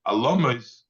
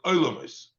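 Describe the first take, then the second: First: "Alomos" with a short a at the start; rejected reading Alomos. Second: "Oilomos" with an oi glide up front; corrected reading Oilomos. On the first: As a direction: open "Alomos" on a, without any oi glide. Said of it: "Don't pronounce it as". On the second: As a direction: begin "Oilomos" on a clear oi. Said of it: "Don't pronounce it as Alomos". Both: Shown as a demonstration.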